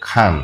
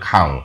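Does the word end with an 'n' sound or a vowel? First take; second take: 'n' sound; vowel. First: The word ends with a clear n sound. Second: The word ends on a vowel without n. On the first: "এই যে খান" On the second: "দন্তান্ন এই আওয়াজটা কিন্তু উঠে যাবে তখন হয়ে যাবে খাও"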